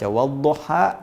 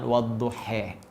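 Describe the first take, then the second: First: The final vowel is an open 'a'. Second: The final vowel is tilted towards 'e'.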